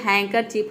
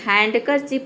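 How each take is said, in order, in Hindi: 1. बीच में D की ध्वनि साइलेंट होती है। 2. बीच में D की ध्वनि बोली जाती है। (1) "यहाँ पे हैंकरचीफ होता है" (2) "हैंडकरचीफ नहीं होता है"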